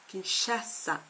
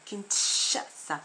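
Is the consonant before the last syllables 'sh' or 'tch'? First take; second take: sh; tch. First: The middle consonant is a soft 'sh' sound. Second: The middle consonant is a 'tch' sound. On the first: The speaker calls it right. "Mais on dit Kinshasa" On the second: The speaker calls it wrong. "on ne dit pas Kinshasa"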